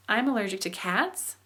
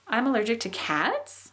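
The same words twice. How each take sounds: First: Milder rise at the end; rising question tune. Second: Overdone yes-no rise; exaggerated rising question. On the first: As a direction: pitch takes off on cats. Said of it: "It kinda takes off". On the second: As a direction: pitch shoots up at the end on cats. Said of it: "that was really crazy up". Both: Shown as a demonstration.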